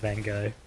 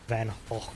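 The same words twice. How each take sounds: First: The name is said with a usual English pronunciation. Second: The name is said with a native Dutch pronunciation. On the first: "I'll stick with Van Gogh. People know what I'm talking about" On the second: "if you say it in like as the natives would have where he's from"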